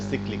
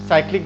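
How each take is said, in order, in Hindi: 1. पहले शब्दांश में छोटा 'i' स्वर है। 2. पहले शब्दांश में लंबा 'eye' स्वर है। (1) "बट ये प्रोनाउंसिएशन इसका सिक्लिक भी होता है" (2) "इसे जनरल साइक्लिक बोला जाता है"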